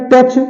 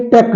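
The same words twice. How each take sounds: First: टच ending in "ch"; wrong pronunciation. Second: Said in the usual way. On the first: Shown as a demonstration. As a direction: close टच on ch, not k. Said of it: "नहीं है". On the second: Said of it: "एच silent है".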